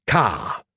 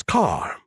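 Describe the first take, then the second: First: "car" as "cah", no final R; dropped R. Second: "car" with the final R sounded; R pronounced. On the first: Retold or imitated. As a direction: mimic New England "car" with an open vowel ending. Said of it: "You leave your R's out". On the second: Shown as a demonstration. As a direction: say "car" ending in a clear R. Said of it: "the way you pronounce car".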